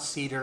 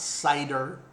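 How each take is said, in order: First: The word is said like 'cedar'. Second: The word is said like 'cider'. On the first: "No, it's not cedar" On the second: "and it's not cider"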